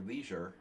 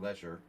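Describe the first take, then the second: First: It is said with an American pronunciation. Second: It is said with an English pronunciation.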